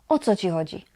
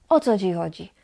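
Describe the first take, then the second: The two takes are said the same way.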